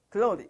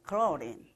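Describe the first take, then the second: First: It is said with a stiff British accent. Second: It is said with an American accent.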